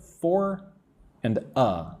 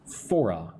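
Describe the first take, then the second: First: "for" and "a" each said alone, with a pause; words kept apart. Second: "For a" linked as "fora"; words joined. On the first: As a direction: separate "for" from "a" clearly. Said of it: "Put for and a together". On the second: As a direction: run "For a" together as one word. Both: Shown as a demonstration.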